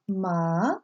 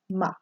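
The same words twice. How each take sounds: First: The pitch rises like a question. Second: The syllable is short and light. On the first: "Second tone is raised up like a question" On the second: "the light sound"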